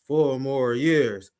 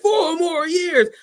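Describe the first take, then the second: First: It is said flatly, in a monotone. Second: It is said with lively, enthusiastic energy. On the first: The crowd is not really excited. "in the most monotone, like enthusiastic way possible" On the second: The crowd is truly excited. "if you're really enthusiastic, you'd be like"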